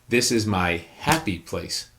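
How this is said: The word happy carries the stress. The place is a happy one, not average. "let's take the fourth word"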